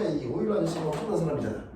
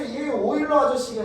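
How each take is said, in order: First: Quick low aside. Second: Said in the usual way. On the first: Shown as a demonstration.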